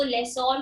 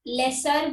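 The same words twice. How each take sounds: First: लेसोर with a full "-sore" ending; लेसोर ending in a round, long "or" vowel; variant pronunciation. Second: लेसर with a short, unstressed "-ser" ending; लेसर ending in a neutral "er" sound; variant pronunciation. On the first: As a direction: say लेसोर as "less-OR". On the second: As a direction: say लेसर to rhyme with "dresser". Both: Shown as a demonstration. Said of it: "अलग-अलग pronunciations हैं".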